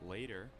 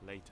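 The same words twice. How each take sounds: First: The middle consonant is a quick tap. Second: The middle consonant is a clear T. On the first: "an American will say later" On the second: "instead of later"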